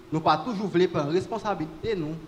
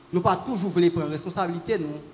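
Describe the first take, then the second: Both takes have the same delivery.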